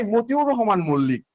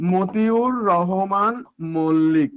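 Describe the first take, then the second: First: Said in the usual way. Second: "Motiur Rahman Mallick" drawn out word by word; slow dictation. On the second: Shown as a demonstration. Teacher dictating the martyr's name to students, slow dictation. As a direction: stretch every syllable, pausing before the surname.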